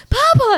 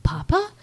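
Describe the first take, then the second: First: Very high, loud cry; hammed-up ecstatic shriek of recognition; freaking out. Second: High, rising, tentative call; disbelieving question. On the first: Daughter jumping on her lost father, freaking out. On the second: Retold or imitated. Daughter realizing it's her father, disbelieving. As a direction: ask it as if barely believing. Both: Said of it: "she's, like, freaking out".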